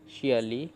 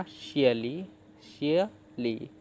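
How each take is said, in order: First: Said in the usual way. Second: "शियली" slowly split as शिय, pause, ली; broken into syllables. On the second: Shown as a demonstration. Teacher showing what the parts make, "शियली" split slowly in two. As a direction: sound out "शियली" in two separated chunks. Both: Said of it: "तो क्या बना".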